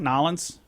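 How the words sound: The name is squeezed together into one word. This is how locals say it.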